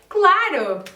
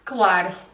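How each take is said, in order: First: It is said in an excited, enthusiastic tone. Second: It is said in a sarcastic, unenthusiastic tone. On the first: They honestly want to go. "with an excited tone" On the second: They are actually saying no. "a total different tone, like this"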